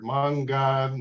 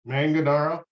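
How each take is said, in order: First: It is said with an Italian pronunciation. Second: It is said with an American pronunciation.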